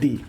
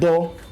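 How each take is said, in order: First: The word ends in a long 'ee' vowel. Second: The word ends in a short 'uh' vowel. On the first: "दूसरा उच्चारण हो जाता है दी" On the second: "एक तो T H E का उच्चारण होता है दो"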